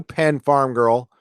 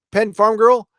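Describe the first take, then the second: First: Put-on Penn Farm Girl drawn out slowly, each word given weight; slow, deliberate naming of Penn Farm Girl; slow dedication. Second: Said in the usual way. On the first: Shown as a demonstration. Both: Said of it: "just for you".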